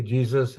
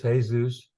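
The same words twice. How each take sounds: First: Said in the usual way. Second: "Jesus" said the Spanish way, hay-SOOS. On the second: Shown as a demonstration. Teacher to student, "Jesus" as Spanish hay-SOOS.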